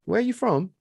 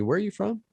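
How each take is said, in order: First: Imitated British man, higher-pitched; British accent. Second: Higher-pitched, lightly acted question; retold puzzled question. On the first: Co-host imitating a cinema customer asking, British accent. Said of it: "he had a British accent". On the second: Co-host voicing people in L A asking, higher retold question. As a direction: ask it up high, imitating curious strangers. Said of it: "people will ask me".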